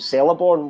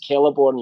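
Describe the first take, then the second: First: The name begins with a soft s sound. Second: The name begins with a hard k sound. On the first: This is how the name was said from reading the books. "call him Celeborn when I was when I was younger" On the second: This is how the name is said in the adaptation. "when you see the movie and it's Celeborn"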